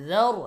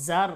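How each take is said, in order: First: যার begun with a soft th as in "this", thick r; soft dhal. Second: জার begun with a hard buzzing z. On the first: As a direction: say যার with tongue lightly between the teeth, r heavy. (যার-এর জাল নরম, র মোটা করে) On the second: (জার-এর শুরুটা শক্ত জ দিয়ে) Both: Shown as a demonstration. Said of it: "এরকম শক্ত করা যাবে না".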